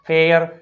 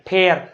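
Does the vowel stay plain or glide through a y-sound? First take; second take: glide; plain. First: The vowel glides through a y-sound before r. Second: The vowel is a plain short e sound. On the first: The speaker calls it right. "પરંતુ સાચો ઉચ્ચાર આવો થાય છે" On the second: The speaker calls it wrong. "આપણે બોલે છે શું?"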